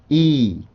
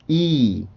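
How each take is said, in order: First: The vowel is long and drawn out. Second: The vowel is long and drawn out.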